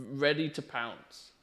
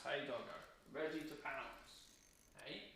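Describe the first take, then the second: First: Said in the usual way. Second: Hushed to the dog. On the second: Real, not acted. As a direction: breathe it softly so the dog stays still. Whispering to dog.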